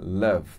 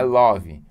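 First: It is pronounced the English way. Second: It is pronounced the Brazilian Portuguese way. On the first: The speaker calls it right. "atenção na pronúncia" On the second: The speaker calls it wrong. "não é love"

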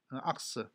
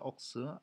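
First: It has an American vowel, like 'ahks'. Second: It has a British rounded vowel, like 'oks'.

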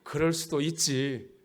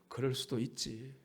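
First: The phrase is said with lively, expressive intonation. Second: The phrase is said plainly, without expressive intonation.

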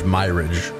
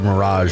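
First: It ends with a hard 'ridge' sound. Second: It ends with a soft 'razh' sound. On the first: The speaker calls it wrong. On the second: The speaker calls it right.

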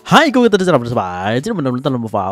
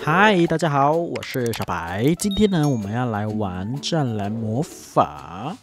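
First: It is said fast. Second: It is said slowly.

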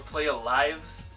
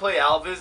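First: The name sounds like 'playa lives'. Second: The name sounds like 'play Alvis'. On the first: The speaker calls it right. "it's Playa Lives" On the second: The speaker calls it wrong. "It's not Play Alvis"

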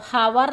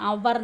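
First: The word begins with an h sound. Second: The word begins with a vowel sound. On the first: The speaker calls it wrong. "ഹവർ എന്നല്ല പറയുന്നത്" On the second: The speaker calls it right. "അവർ എന്ന് പറയുന്നത്"

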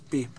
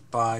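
First: The vowel sounds like the word pee. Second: The vowel sounds like the word pie. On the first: The speaker calls it right. "it's pronounced as p" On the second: The speaker calls it wrong. "it's not pronounced as pi"

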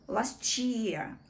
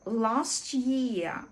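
First: The t and y merge into ch. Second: The t sound is dropped completely. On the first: "В швидкій англійській мові ці слова поєднуються і вимова змінює звук «ч»" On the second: "коли звук «ч» зовсім випадає, і це буде last year"

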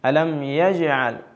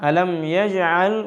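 No difference in how they are said.

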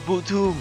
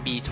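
First: The name is said as two syllables, bu-tu. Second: The name is said like the letter B and two. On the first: This is the reading used in the original Japanese. "เกมมันก็อ่านว่า" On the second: This is the reading used in the Thai version. "บางคนก็อ่าน"

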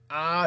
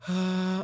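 First: The vowel is tight with squeezed vocal folds. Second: The vowel is airy with open vocal folds. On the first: "이렇게 쪼여서 내기도 하고" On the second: "성대를 벌려서 내기도 하고"

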